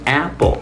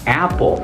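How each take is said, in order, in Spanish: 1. La primera vocal es distinta del nombre de la letra A. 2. La primera vocal es distinta del nombre de la letra A.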